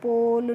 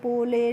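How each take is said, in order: First: The word ends with no final vowel. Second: The final e is sounded as a vowel. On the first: The speaker calls it right. "कैसे पढ़ना है" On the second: The speaker calls it wrong. "इस तरीके से नहीं पढ़ना है"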